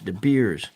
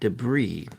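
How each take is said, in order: First: The word sounds like 'De Beers'. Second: The word sounds like 'debris'. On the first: The speaker calls it wrong. "I pronounced it De Beers" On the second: The speaker calls it right. "not debris"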